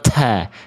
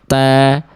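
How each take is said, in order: First: The t has a heavy, exaggerated puff of breath. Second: The t has only a slight puff of breath. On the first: The speaker calls it wrong. "jangan berlebihan, jangan ta" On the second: The speaker calls it right. "tapi ta ... itu dia nggak berlebihan"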